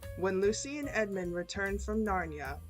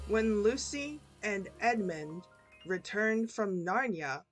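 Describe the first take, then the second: First: The sentence is read at normal pace. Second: The sentence is read at a slow pace. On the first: "and then one time at normal speed" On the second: "two times slow"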